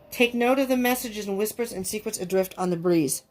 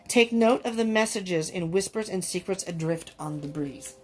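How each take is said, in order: First: It is said fast. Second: It is said more slowly.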